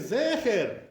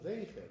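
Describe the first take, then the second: First: The first vowel sounds like 'eh' in bed. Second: The first vowel sounds like 'ay' in pain. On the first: The speaker calls it right. "We say zecher" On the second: The speaker calls it wrong. "So they say zeicher"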